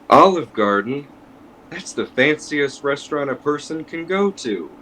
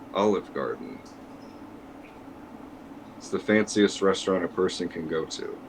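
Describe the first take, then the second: First: It sounds sincere and earnest. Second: It sounds sarcastic and mocking.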